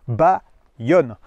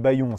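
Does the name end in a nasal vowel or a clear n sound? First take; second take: n sound; nasal vowel. First: The name ends in a clear n sound. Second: The name ends in a nasal vowel. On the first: The speaker calls it right. "ça se prononce Bayonne" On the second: The speaker calls it wrong. "il y en a qui vont prononcer Bayon, c'est pas ça"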